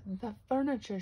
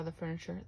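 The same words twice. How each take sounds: First: Higher, louder exclamation of alarm; dismayed cry. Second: Said in the usual way. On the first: A narrator's reading. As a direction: cry it out in mild storybook shock. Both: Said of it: "she cried".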